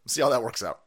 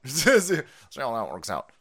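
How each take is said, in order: First: Said in the usual way. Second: Drawn out through a laugh, mocking; slow laughing mock. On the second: Repeating his jab to viewers, laughing slowly.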